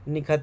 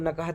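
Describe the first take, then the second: First: The first vowel is an 'i' sound. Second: The first vowel is an 'a' sound. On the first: "कुछ लोग निखत भी पढ़ते हैं" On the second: "बाज़ लोग ना इसको नकहत भी पढ़ते हैं"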